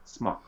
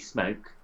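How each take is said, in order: First: The vowel is short, as in 'smock'. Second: The vowel is long, as in 'smoke'. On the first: The speaker calls it right. "there's no E, and then they'll go, oh" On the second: The speaker calls it wrong. "they will turn around and say to you"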